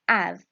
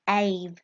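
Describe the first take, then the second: First: The vowel is a short 'a' sound. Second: The vowel is a long 'ay' sound. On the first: The speaker calls it right. "we say av" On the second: The speaker calls it wrong. "we don't say ave"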